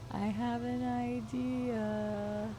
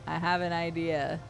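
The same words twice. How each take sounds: First: "I have an idea" drawn out very slowly, softer and higher; slow scheming tease. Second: Said in the usual way. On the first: Shown as a demonstration. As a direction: stretch every word like a sly plotter. Slow, soft repeat of line.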